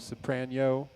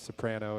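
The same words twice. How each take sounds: First: The n is said as a 'ny' sound. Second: The n is said as a plain n.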